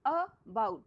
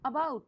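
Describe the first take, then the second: First: About broken into a short "a", then "bout"; a clear gap inside about, weight on bout; split into syllables. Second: Said in the usual way. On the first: Shown as a demonstration. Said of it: "इसमें टू syllable है". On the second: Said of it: "about मैंने शब्द करवाए थे".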